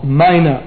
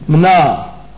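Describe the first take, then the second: First: A vowel is sounded between the m and n. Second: The m and n are said together without a vowel. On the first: "we have to put one in order to say it with any real emphasis" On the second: "There's no I in it, really"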